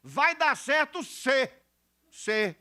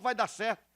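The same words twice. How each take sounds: First: "se" punched high and drawn out; slow down and land hard on the condition "se"; stress on SE. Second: Said in the usual way. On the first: Shown as a demonstration. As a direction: hammer the word "se". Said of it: "Tem condicionante aí".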